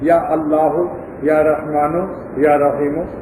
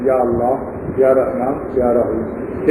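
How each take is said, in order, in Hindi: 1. नाम एक अतिरिक्त 'u' स्वर के साथ खत्म होते हैं। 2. नाम बिना किसी अतिरिक्त अंतिम स्वर के खत्म होते हैं।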